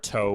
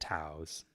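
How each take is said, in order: First: The vowel sounds like the one in go. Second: The vowel sounds like the one in wow. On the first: "whatever you want to call them" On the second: "Rhymes with wow"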